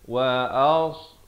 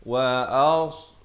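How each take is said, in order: First: The s is a heavy, emphatic s sound. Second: The same.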